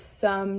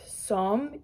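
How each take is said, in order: First: The vowel sounds like a short 'uh'. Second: The vowel sounds like a rounded 'oh'. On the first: The speaker calls it right. "So just try to remember there it's some" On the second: The speaker calls it wrong. "not som, even though it's an O"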